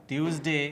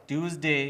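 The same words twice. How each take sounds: No difference in how they are said.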